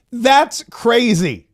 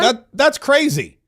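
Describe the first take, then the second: First: Very slow, stretched "That's crazy" with "That's" leaned on; milk every syllable of "That's crazy" in ridicule; hammed-up drawl of "That's crazy"; exaggerated mock repeat. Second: Slow, mocking "that's crazy" with "that's" stressed; drawn-out sarcastic echo of "crazy"; mock repeat. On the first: Mockingly repeating Bondi's quote again. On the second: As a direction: drag out "That, that's crazy" to ridicule it. Mockingly repeating Bondi's quote.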